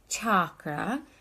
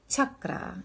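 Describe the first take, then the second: First: The first vowel is not a short 'cup' vowel. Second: The first vowel is short, like in 'cup'. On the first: The speaker calls it wrong. "and not chakra" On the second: The speaker calls it right. "It's a short a, like cup in chakra"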